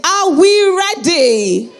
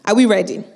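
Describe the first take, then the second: First: High, slow, loud crowd-pumping yell; hyped shout. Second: Said in the usual way. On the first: Real, not acted. Host pumping up the audience, loud drawn-out hype shout. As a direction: stretch it out and lift the whole room. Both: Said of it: "that's the energy".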